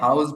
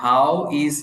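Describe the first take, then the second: First: 'How is' is shortened into one syllable. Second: 'How is' is said as two separate words. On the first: "হাউস বলে" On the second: "এটা হাউ ইজ কে হাউস বলে"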